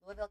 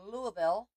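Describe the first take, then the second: First: Louisville said as a quick two-beat "Luh-vul"; Louisville clipped to "Luh-vul"; local pronunciation. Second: Said in the usual way. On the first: Shown as a demonstration. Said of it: "I'll be in Louisville". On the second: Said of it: "Louisville, Kentucky".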